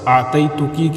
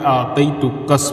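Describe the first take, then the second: First: The word ends in a vowel after k. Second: The word ends with an added s sound. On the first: This is the standard form. "आतई तुकी की जगह पे" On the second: "कसकसा यानी मुअन्नस काफ की ज़मीर को कस पढ़ना"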